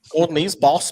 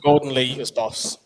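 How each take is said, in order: First: It is said in a Liverpool Scouse accent. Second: It is said in the speaker's ordinary accent.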